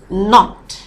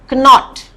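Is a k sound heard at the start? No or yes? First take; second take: no; yes. First: No k sound is heard before the n. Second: A k sound is heard before the n. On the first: The speaker calls it right. "it is" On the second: The speaker calls it wrong. "is not"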